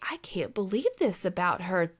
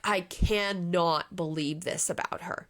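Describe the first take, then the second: First: The voice sounds happily amazed and delighted. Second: The voice sounds upset and disapproving. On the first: The news about her is wonderful. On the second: The news about her is shocking in a bad way.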